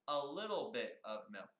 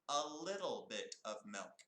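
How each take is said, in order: Both takes have the same delivery.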